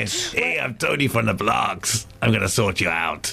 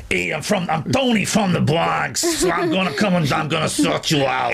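First: Half-hearted, slow Bronx accent; softer copy of a New York tough guy; American accent attempt. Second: Hammed-up Bronx tough guy, lower and drawn out; American accent. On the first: Embarrassed co-host copying the host's Bronx accent, tentative. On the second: Host showing colleague a Bronx American accent, hammed up. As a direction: put on a mock New York accent. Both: Shown as a demonstration. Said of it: "give us your best American accent".

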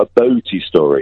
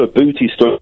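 First: "boaty", oh in the first syllable, set against booty; vowel "oh" in boaty. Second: "booty", oo in the first syllable; vowel "oo" in booty. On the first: Caller correcting the presenters, "boaty" with a clear oh. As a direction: say "boaty" with an oh, as in boat. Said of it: "but I've got a boaty story". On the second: Caller clearing up a mishearing, "booty" with an oo. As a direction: say "booty" with a long oo, as in boot. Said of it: "No, no, not a boot". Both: Shown as a demonstration.

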